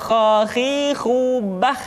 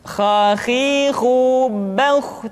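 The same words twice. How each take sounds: First: "khakhihu bah" chanted slowly, thin open last a; thin kha, mistaken. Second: "Khakhihu bauh" chanted slowly, rounded last vowel; thick kha drill. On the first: Teacher showing what to avoid, thin chanted sound. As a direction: draw out "khakhihu bah" with an unrounded ending. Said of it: "tidak khakhihu bah". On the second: Teacher giving the correct drill, thick chanted sound. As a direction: draw out "Khakhihu bauh" with a heavy ending. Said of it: "menebal suaranya". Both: Shown as a demonstration.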